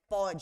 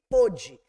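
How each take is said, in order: First: The first vowel is an open o. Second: The first vowel is a closed o. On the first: It happens in the present. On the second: It happened in the past.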